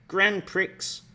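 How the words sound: It is said with an English pronunciation.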